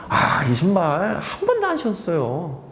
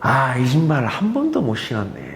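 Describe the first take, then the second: First: It is said in a lively tone. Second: It is said in a regretful tone.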